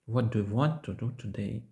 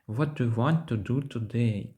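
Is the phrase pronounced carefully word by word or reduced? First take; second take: careful; careful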